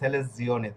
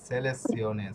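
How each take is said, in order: First: The z is voiced, like j. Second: The z is voiceless, like ts. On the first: The speaker calls it wrong. "তো আপনি যদি বলেন সেলেস জিওনে, তাহলে হবে না।" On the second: The speaker calls it right. "সিওনে থাকলে যাতে অক্ষরের উচ্চারণ ছয়ের মতো হয়"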